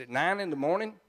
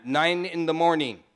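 First: Said in the usual way. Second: Firm Trinidadian boss imitation; put-on Trinidadian accent; mimicked Trinidadian accent. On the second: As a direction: answer as the Trinidadian old boy. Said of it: "I can mimic that old boy".

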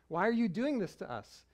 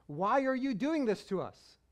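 First: A light plea in the voice of a worried mother; mother half pleading with her son; mild pleading mom. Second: "Why are you doing this to us?" pitched higher and louder, pressing on "doing"; a mother's exasperated demand; mother confronting her son after searching for him; full scolding mom. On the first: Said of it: "mom mode turns on". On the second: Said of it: "like when mom says your full name". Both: Retold or imitated.

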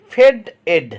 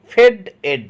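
No difference in how they are said.

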